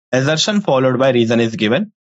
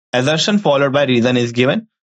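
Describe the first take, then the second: No difference in how they are said.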